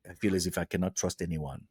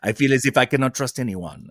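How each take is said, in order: First: It is said in the speaker's own plain accent. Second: It is said in a French Canadian accent.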